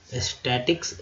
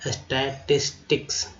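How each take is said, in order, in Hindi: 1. यह शब्द दो अक्षरों में बोला जाता है। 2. यह शब्द चार अक्षरों में बोला जाता है। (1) "स्टैटिक्स लोग बोल जाते हैं" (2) "शुद्ध होगा स्टैटिस्टिक्स"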